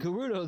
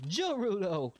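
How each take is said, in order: First: The word starts with a hard G sound. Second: The word starts with a J sound. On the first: "The first time I said Gerudo" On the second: "the second time I said Jorudo"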